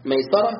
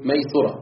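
First: ميسرة said maysara, open a on the sin; ميسرة with a clear fatha on the s; ميسرة pronounced maysara. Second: ميسرة said maysura, u on the sin; ميسرة with a rounded u on the s; ميسرة pronounced maysura; maysura with damma. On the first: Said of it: "بفتح السين". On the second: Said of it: "وضمها". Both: Shown as a demonstration.

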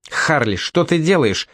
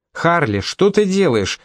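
First: Confused question, \"ты\" stressed; puzzled. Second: Higher, slower, pressing repeat of \"ты\"; insistent. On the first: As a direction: ask \"Харли, что ты делаешь?\" in confusion. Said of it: "недоуменно спросила Мисти". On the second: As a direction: press \"Харли, что ты делаешь?\" again, more urgently. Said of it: "не отставала Мисти". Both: A narrator's reading.

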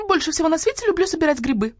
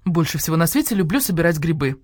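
First: High parroting copy of her line; bird mimicking her. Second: Said in the usual way. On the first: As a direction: echo her words, pitched high. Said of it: "повторил Скворец". (высоко повторяя её слова) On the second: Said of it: "откликнулась Нина Павловна".

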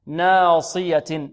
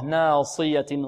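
First: ناصية very slowly, with a full, emphatic ص; heavy sad. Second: ناصية slowly, with the ص kept emphatic; correct heavy sad. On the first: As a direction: stretch out ناصية to show the heavy ص. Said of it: "مفخمة مطبقة". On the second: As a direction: model ناصية with a full heavy ص. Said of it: "ولا نقول ناصية". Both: Shown as a demonstration.

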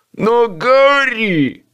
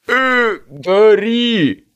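First: Slow, insistent protest. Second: Uncertain, halting call; hesitant. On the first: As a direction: refuse to give up, drawn out. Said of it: "не сдавался он". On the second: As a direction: start unsure, trailing off. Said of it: "неуверенно начал Боб". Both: A narrator's reading.

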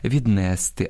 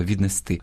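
First: Віднести stressed on -НЕС-; wrong dialect stress. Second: Віднести stressed on the final -ТИ; correct stress. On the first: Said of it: "Або ж діалектним впливом". (діалектний наголос на другому складі: віднести) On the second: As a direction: hit the last syllable of віднести. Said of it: "а треба віднести". (наголос на останньому складі: віднести) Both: Shown as a demonstration.

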